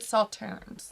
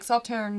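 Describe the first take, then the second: First: The final S sound is pronounced. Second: The final S sound is left silent. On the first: The speaker calls it wrong. "or is it Sauternes?" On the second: The speaker calls it right. "you don't say the S"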